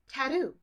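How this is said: The middle T sounds like a D.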